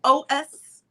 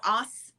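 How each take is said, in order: First: OS said as two letters, O S; O, then S, as separate letter names; spelled out. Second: Os said as one syllable; read as a word. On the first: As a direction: read O S letter by letter. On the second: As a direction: say Os as a single word, not letters. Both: Real, not acted. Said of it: "however you pronounce that".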